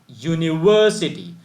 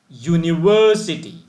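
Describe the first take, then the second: No difference in how they are said.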